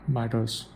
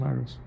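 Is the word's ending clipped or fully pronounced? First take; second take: fully pronounced; clipped. First: The word is said clearly with its ending complete. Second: The word is said loosely with its ending clipped. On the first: "I'm not saying like this" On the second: "I'm not pronouncing the words clearly and completely"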